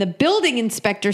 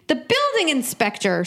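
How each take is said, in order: First: Said in the usual way. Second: BUILDING pitched high, then falling; disbelieving echo, high on BUILDING; incredulous repeat. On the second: Real, not acted. Questioning who has the power, incredulous on BUILDING.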